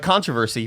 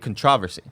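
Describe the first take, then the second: First: It is said the usual American way. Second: It is said the way British speakers say it. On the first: "like like controversy" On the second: "but they say controversy"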